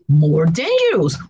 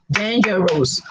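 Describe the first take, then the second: First: Said in the usual way. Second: "Dangerous" in three separate beats, DAN-GER-OUS; syllable by syllable. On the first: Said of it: "add the word more before". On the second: Shown as a demonstration. Teacher shows three or more syllables, syllable by syllable. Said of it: "Three or more syllables".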